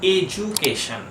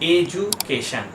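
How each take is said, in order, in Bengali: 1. মাঝের ব্যঞ্জনটি একটি 'j' ধ্বনি। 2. মাঝের ব্যঞ্জনটি একটি 'j' ধ্বনি।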